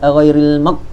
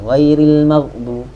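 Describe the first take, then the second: First: The gh sound is cut off tight and short. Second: The gh sound is released and allowed to flow. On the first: The speaker calls it wrong. "Dia rasa hebat baca iya ghairil mag. Ha gitu dah. Kemah bunyi ni" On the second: The speaker calls it right. "Tapi sebenarnya rakhawah. Ghairil maghdu mag mag kita lepas dia"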